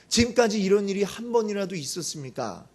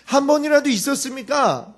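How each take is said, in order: First: Said in the usual way. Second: 번이라도 punched higher and louder on the repeat; emphatic repeat. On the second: Acted. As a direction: hammer home 한 번이라도 있었습니까 as a challenge. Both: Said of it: "이렇게 따지는 거죠".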